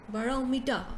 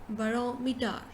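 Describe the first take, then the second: No difference in how they are said.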